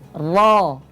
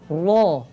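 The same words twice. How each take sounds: First: The sound is made with unrounded lips. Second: The sound is made with rounded lips. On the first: The speaker calls it right. "itu tidak dibulatkan kedua bibirnya" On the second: The speaker calls it wrong. "Bukan ro"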